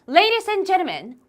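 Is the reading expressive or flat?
expressive. It is read with lively, strong feeling. The speaker calls it right. "이런 식으로 감정을 실어서 읽기"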